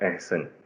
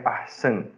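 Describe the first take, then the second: First: The first vowel is a mid e-like sound. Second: The first vowel is a full open a. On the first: This is the Urdu pronunciation. "Urdu में मजहूल बोला जाता है" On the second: This is the Arabic pronunciation. "इसका ज़बर तना हुआ है"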